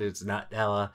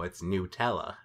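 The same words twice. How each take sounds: First: Nutella said as NUT-ella; first vowel of Nutella as in "nut"; nut pronunciation. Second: Nutella said as new-TELL-uh; first vowel of Nutella as in "new"; new pronunciation. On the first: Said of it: "I always pronounced it". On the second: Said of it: "how to pronounce Nutella". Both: Retold or imitated.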